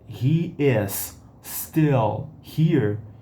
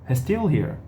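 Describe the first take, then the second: First: He and is are said as two separate words. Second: He and is are contracted into one syllable. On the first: "E a gente fala"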